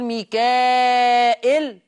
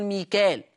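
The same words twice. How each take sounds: First: "ميكائيل" with a long, loud held aa before the hamza; fully lengthened madd. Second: "ميكال" as mikaal, no hamza; two syllables in "ميكال", no glottal break; Hafs pronunciation. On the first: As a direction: stretch mikaaaa, then -il in "ميكائيل". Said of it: "مد متصل يشبع قولا واحدا". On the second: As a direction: say "ميكال" briefly as mee-kaal. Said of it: "لأنه حفص بيقول". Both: Shown as a demonstration.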